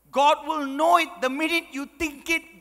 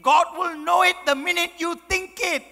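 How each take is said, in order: First: Stern warning. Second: Higher, louder hammed-up repeat; louder stern mock warning. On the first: Retold or imitated. Mother's stern warning, first take. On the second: Mother repeating her warning to her son, louder. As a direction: raise it to a booming threat.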